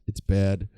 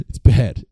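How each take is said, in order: First: Said in the usual way. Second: Louder. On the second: Shown as a demonstration.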